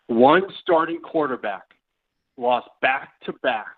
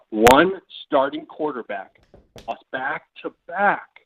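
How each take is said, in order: First: Said in the usual way. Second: Slower, deliberate reread; slow repeat. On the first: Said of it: "first reading of question". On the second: Shown as a demonstration. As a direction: repeat the question slowly, word by word. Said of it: "repeats question slower".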